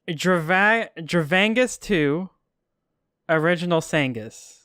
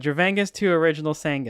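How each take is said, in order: First: The phrase is broken by a pause. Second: The phrase runs on without a pause. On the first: The speaker calls it wrong. "Could we get that without the pause?" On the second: The speaker calls it right. "Okay, there you go"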